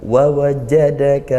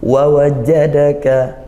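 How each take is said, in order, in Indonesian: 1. Konsonannya ditekan kuat dan ditahan. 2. Konsonannya ditekan kuat dan ditahan.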